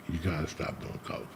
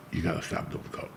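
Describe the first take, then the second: First: Soft unvoiced whisper, very quiet; whispered warning. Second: Breathy hushed whisper, barely voiced; whispered warning. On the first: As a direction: hush it as a last plea. Repeats dying friend's warning. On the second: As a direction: whisper it like a dying friend's plea. Dying friend warns him quietly.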